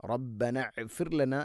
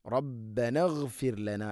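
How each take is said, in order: First: റബ്ബന ഇഗ്ഫിർ ലന with the hamza sounded; the wrong way with an extra i; wrong reading. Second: റബ്ബന ഇഗ്ഫിർ ലന joined smoothly; correct reading. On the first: Teacher showing what not to say. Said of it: "എന്നും ആവരുത്". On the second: Teacher giving the correct reading. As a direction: run റബ്ബന into ഗ്ഫിർ. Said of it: "എന്നാ പറയാ". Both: Shown as a demonstration.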